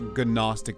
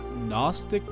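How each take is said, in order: First: The word begins with a hard G sound. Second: The word begins with an N sound, G silent. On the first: The speaker calls it wrong. "not Gnostic like I say" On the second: The speaker calls it right. "just know it's pronounced Gnostic"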